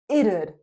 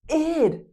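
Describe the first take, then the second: First: It is said as two syllables. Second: It is said as one syllable. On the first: "we can have two syllables" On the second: "That's the best way to pronounce it. Id. Just like the word hid"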